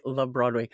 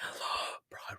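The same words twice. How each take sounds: First: Said in the usual way. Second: Breathless unvoiced whisper after a gasp. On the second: Real, not acted. Streamer gasping over her love of Broadway. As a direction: whisper it in awe.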